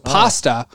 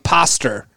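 First: The word ends in a plain 'a' vowel. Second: The final vowel becomes an 'er' sound.

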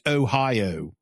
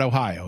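First: The O sounds are long and drawn out. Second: The O sounds are short and plain. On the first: This is how people say it around Pittsburgh. "O's are long O's up there. They're O's. It's Ohio" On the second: This is how people say it elsewhere. "not Ohio"

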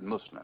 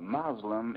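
First: The word has its original Arabic pronunciation. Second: The word has an anglicized English pronunciation. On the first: "the Arabic word" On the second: "the anglicized pronunciation"

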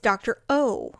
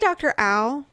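First: The name sounds like 'oh', rhyming with 'go'. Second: The name sounds like 'ow', rhyming with 'cow'. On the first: The speaker calls it right. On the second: The speaker calls it wrong.

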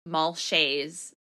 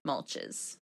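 First: The name ends with a 'shay' sound. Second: The name ends with a 'ches' sound. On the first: The speaker calls it right. "it's Mulshay's Odyssey" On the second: The speaker calls it wrong. "not Mulches"

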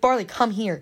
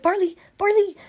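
First: The name is called in an aggressive way. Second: The name is called in a cute way.

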